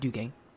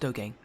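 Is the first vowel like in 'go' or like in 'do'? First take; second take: like do; like go. First: The first vowel sounds like the vowel in 'do'. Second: The first vowel sounds like the vowel in 'go'. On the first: The speaker calls it wrong. "not Dugang" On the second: The speaker calls it right. "it is pronounced Dogang"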